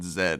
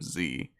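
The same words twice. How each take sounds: First: The letter is pronounced as 'zed'. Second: The letter is pronounced as 'zee'. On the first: This is how the announcer said it. "the English pronunciation of things. Like he said Z" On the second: This is the expected American way. "instead of Z"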